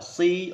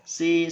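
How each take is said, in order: First: The 's' is heavy, with a full, deep mouth. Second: The 's' is light, with a thin, flat sound. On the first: The speaker calls it right. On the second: The speaker calls it wrong.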